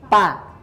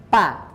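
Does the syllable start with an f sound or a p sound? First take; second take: p sound; p sound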